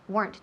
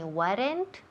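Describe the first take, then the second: First: The word is said as one syllable. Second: The word is split into two syllables. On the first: The speaker calls it right. "one syllable" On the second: The speaker calls it wrong. "No son dos sílabas"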